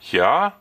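The voice rises, like asking something. The speaker is asking. "which is a question"

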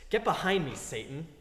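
It is said in a dismissive, flippant way.

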